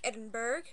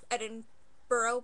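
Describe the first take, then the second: First: The word is pronounced the way it is spelled. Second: The word is pronounced differently from its spelling. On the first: "although it's spelled like Edinburgh" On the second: "which is how they say it here"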